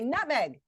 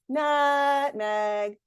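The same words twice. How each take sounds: First: The word is said quickly and sharply. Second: The word is said slowly with stretched syllables. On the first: The speaker calls it right. "I would say" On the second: The speaker calls it wrong. "I wouldn't say"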